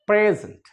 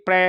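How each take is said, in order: First: प्रेजेंट with lips spread to the sides; right pronunciation. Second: प्रे said with the chin dropping down; wrong pronunciation. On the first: Teacher shows the correct spread-lip प्रेजेंट. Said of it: "lips हमारे side में spread होंगे". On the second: Teacher shows the wrong प्रे with dropped chin. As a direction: show the wrong प्रे with the jaw open. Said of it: "ऐसे नहीं". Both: Shown as a demonstration.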